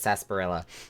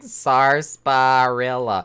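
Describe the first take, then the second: First: The word is said in a shortened form. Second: Every letter of the word is sounded out. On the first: "when I try to think of it in my head, it's just" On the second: "I'm trying to pronounce all the letters like"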